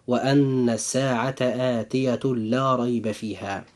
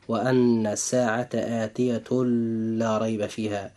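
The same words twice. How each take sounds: First: آتية لا merged with idgham, no nasal hum, lam doubled; correct reading. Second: آتية لا read with the tanween n said clearly before لا, no merging; wrong reading. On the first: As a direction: read آتية لا as one sound with a doubled l. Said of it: "أما القراءة الصحيحة فهي هكذا". (قراءة صحيحة بإدغام بغير غنة في آتية لا) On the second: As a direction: show the mistake: sound the n of آتية, then say لا apart. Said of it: "ولا نقرأ هذه الآية من باب الخطأ هكذا". (قراءة خاطئة بإظهار تنوين آتية قبل لا) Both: Shown as a demonstration.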